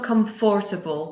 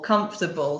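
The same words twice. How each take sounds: First: The middle 'o' syllable is fully pronounced. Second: The middle 'o' syllable is dropped. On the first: The speaker calls it wrong. "It's not comfortable" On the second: The speaker calls it right. "we don't pronounce the second syllable"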